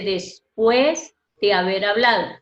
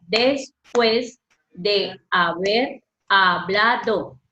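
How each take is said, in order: First: Said in the usual way. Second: Slow, each syllable apart; teacher separating syllables. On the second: Shown as a demonstration. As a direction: spell out "Después de haber hablado" slowly in syllables. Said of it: "Mire cómo está separada la palabra".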